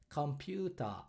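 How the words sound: It is said with Japanese katakana-style syllables.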